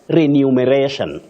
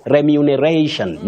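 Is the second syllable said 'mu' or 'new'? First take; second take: new; mu. First: The second syllable sounds like 'new'. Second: The second syllable sounds like 'mu'. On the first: The speaker calls it wrong. "New, no" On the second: The speaker calls it right. "Mu, yes"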